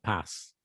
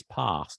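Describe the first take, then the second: First: "pass" with a short A, as in cat; northern English "pass", short vowel. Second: "pass" with a long AH, as in father; southern English "pass", long vowel. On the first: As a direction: say "pass" the Midlands way. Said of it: "not pass, as you say it". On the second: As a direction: say "pass" the RP way, "pahss". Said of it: "R P is pass, not pass". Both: Shown as a demonstration.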